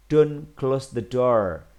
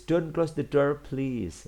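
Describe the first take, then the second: First: Slow, firm, louder model sentence; plain command. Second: Higher, quicker, easing off on please; politer request. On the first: Teacher models a don't command for pupils, slow and firm. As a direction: say the command slowly and with weight. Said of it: "Ketika kamu pengen lebih halus". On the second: Teacher shows pupils the politer version, higher, softening at the end. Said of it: "pengen lebih halus, boleh ditambah please". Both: Shown as a demonstration.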